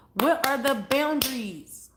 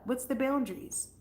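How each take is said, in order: First: Slow, louder, WHAT punched; pressing, drawing out each word; demanding emphasis. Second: Said in the usual way. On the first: Real, not acted. Pressing viewer for gossip.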